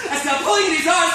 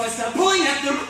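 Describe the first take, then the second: First: Higher, louder, near shouting; frantic. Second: Raised, loud, urgent telling; rising panic. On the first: Pulling at Tony's eyes in the mirror, frantic. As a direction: escalate sharply towards a scream. Repeat climbs towards the scream. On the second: Tearing at the worms in his eyes, rising panic. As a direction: start to lose control, pitch lifting. First take, horror starts to build. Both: Acted.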